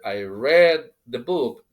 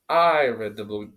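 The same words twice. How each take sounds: First: The word 'book' carries the stress. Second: The word 'I' carries the stress. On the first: It was the book I read, not the movie. "not not the movie" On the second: It was me who read it, not you. "You didn't. I did it"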